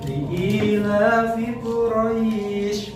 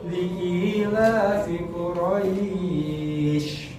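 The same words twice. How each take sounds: First: The long vowel is held for two counts. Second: The long vowel is held for four counts. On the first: "Boleh dua" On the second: "Boleh nggak empat? Boleh"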